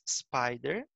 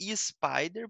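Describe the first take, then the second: First: The word starts directly with the s sound. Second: An extra vowel sound comes before the s. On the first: The speaker calls it right. "é apenas spider" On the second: The speaker calls it wrong. "Tentar não falar spider, porque não tem um i no começo"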